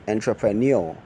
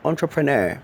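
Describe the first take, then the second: First: Entrepreneur said en-truh-pruh-NYOO-oh; wrong pronunciation. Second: Entrepreneur said on-truh-pruh-NAIR, higher; correct pronunciation. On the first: Teacher quoting the common error. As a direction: mimic the wrong entrepreneur ending in oh. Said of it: "Entrepreneur is wrong". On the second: Teacher giving the right form against the wrong. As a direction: model Entrepreneur ending in NAIR. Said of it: "The correct rendition of that word is". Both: Shown as a demonstration.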